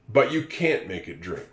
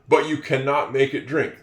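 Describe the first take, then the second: First: The negative is shortened to one syllable, can't. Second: The negative is said in full as cannot. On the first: The speaker calls it right. "They would say" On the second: The speaker calls it wrong. "most people would not say"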